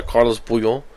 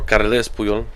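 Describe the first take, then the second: First: "Carlos Puyol" with an o in Carlos; first pronunciation. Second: "Carles Puyol" with an e in Carles; corrected pronunciation. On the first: Fan naming a defender, "Carlos Puyol" with -los. Corrects his own pronunciation. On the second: Fan correcting a defender's name, "Carles Puyol" with -les. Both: Shown as a demonstration.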